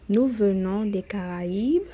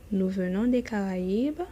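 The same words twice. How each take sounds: The two takes are said the same way.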